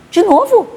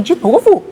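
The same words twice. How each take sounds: First: Much higher, squeaky shocked echo; outraged disbelief. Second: Rising, higher disbelief; can't believe she must go back; incredulous. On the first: Daughter to mother, outraged high-pitched repeat. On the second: Daughter to mother, higher incredulous protest. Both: Retold or imitated.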